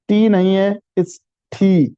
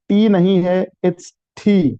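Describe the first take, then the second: Both takes have the same delivery.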